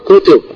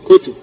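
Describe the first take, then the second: First: The word has two syllables, with a vowel after t. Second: The word has one syllable, with no vowel after t. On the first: "كل ما كان على وزن فعل بضمتين" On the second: "بإسكان تاء"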